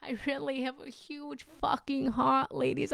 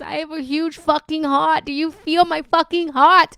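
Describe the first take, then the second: First: Said in the usual way. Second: Shouted, louder and higher, all in; near-screaming about her big heart; passionate shout. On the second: Real, not acted. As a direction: belt it out to the room. Passionate outburst to viewers.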